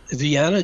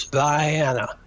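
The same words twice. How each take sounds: First: Said in the usual way. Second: "Vienna" said vy-ANN-uh; local Georgia pronunciation. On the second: Shown as a demonstration. Demonstrating a hometown quirk, "Vienna" pronounced vy-ANN-uh. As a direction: say "Vienna" with a long i, like "vie". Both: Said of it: "Georgia is Vienna".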